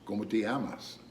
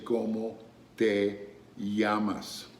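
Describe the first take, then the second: First: The phrase is said quickly with words run together. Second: The phrase is said slowly with words separated. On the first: The speaker calls it right. "that went really fast" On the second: The speaker calls it wrong. "I don't say ¿Cómo te llamas?"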